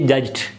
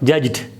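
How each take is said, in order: First: The word ends with a voiceless t sound. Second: The word ends with a voiced d sound. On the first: The speaker calls it wrong. "You can't say judged as in the first three words" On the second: The speaker calls it right. "it remains da"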